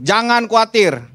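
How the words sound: It sounds like a firm, direct command. It is an order that must be obeyed. The speaker calls it right. "Gitu cara bacanya"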